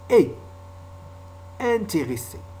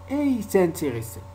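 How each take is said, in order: First: No linking consonant joins et to intéressés. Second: A linking consonant joins et to intéressés. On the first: The speaker calls it right. "On dit ils sont intelligents. Et intéressé" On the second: The speaker calls it wrong. "On ne dit pas et intéressés. Yani, il ne faut pas faire la liaison"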